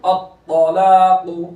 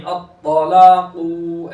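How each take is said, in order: First: Loud अत्तलाकु with heavy त, long ला, short कु; full qaf, short ending. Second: अत्तलाकु with the final कु dragged long; wrongly stretched qaf. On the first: Teacher shows full letters, अत्तलाकु with final कु kept short. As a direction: stretch only ला in अत्तलाकु, keep कु short. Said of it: "क़ाफ पुर". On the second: Teacher shows the mistake, final कु of अत्तलाकु stretched. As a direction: draw out the last ऊ in अत्तलाकु. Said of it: "ऐसा नहीं". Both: Shown as a demonstration.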